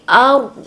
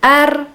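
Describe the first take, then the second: First: The r sound is thick and heavy. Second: The r sound is thin and light. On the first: The speaker calls it right. "Dibaca tebal" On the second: The speaker calls it wrong. "bukan ar"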